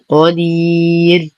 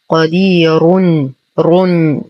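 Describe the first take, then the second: First: The r is light at a stop. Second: The r is heavy and joined onward. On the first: The reading stops on this word. "ووقفا ... لإعطاء ترقيق الراء" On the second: The reading continues without a stop. "حال الوصل ... نستعلي بالراء"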